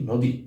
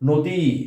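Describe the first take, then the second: First: The final vowel is kept short. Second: The final vowel is drawn out long. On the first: The speaker calls it right. "কিন্তু আমরা তা না করে সবসময় বলি নদী নদী" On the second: The speaker calls it wrong. "যদি দীর্ঘ এর উচ্চারণটা আমরা করি তা আমাদের বলতে হতো নদী নদী"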